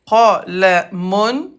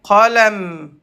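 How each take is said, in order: First: The word ends with an 'un' sound after 'm'. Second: The word ends on a bare 'm' sound. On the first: The word is read in full, not at a stop. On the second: The word ends the phrase.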